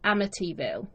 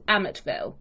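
First: It is said with an American pronunciation. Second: It is said with a British pronunciation. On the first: "the actual American pronunciation, I believe, is Amityville" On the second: "over here, I think we always hear is Amityville"

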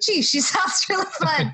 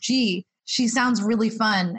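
First: It is said lively, with more enthusiasm. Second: It is said flatly, with little enthusiasm. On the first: The speaker calls it right. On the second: The speaker calls it wrong.

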